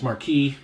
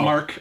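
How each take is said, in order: First: The name has two syllables, ending in 'kee'. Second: The name has one syllable, ending in 'k'. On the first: The speaker calls it wrong. "I've mispronounced their name as Marquis" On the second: The speaker calls it right. "but it's"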